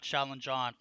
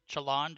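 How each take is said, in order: First: The name is split into two parts, 'challenge on'. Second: The name is blended, sounding like 'challenge'. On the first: The speaker calls it right. "So I just go ahead and separate them" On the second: The speaker calls it wrong. "it's not challenge"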